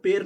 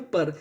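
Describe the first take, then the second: First: "पेर" with a long e vowel; PER read literally as "पेर", vowel as in pay; mistaken spelling pronunciation. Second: "पर" with a short uh vowel, pitched low; PER read as "पर", short a replacing the e; correct code pronunciation. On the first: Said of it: "पेर नहीं पढ़ते". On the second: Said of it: "इसे क्या पढ़ते हैं". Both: Shown as a demonstration.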